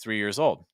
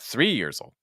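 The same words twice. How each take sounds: First: The stress falls on the word old. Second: The stress falls on the number three. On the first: The speaker calls it right. "usually the stress is going to fall on old" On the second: The speaker calls it wrong. "not the number"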